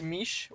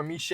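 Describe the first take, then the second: First: "miche" said as one syllable, like "meesh"; one-syllable pronunciation. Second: "miche" said in two syllables, like "mee-shay"; alternative pronunciation. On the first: Host trying a bread name for viewers, "miche" as "meesh". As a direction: say "miche" to rhyme with "leash". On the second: Host unsure of bread name, offering "miche" as "mee-shay". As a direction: say "miche" with an added "ay" ending. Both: Shown as a demonstration. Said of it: "I don't know how to pronounce it".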